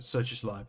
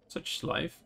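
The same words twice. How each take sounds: First: It is said in a casual tone. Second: It is said in a dramatic tone.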